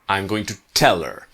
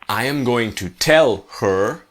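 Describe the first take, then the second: First: The h in her is dropped. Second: The h in her is clearly pronounced.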